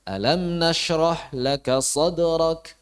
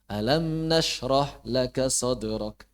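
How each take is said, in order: First: The phrase ends with a clear questioning tune. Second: The phrase ends with a final, finished tune. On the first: It is asked as a question. The speaker calls it right. "ada unsur tanyanya itu tegas" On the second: It sounds like a closed, finished remark. The speaker calls it wrong. "seperti selesai tuntas gitu kan udah. Gak pas"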